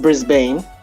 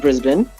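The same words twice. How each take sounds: First: It is said with an American pronunciation. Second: It is said with an Australian pronunciation. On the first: The speaker calls it wrong. "not Brisbane, like some Americans would say" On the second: The speaker calls it right. "the city's Brisbane"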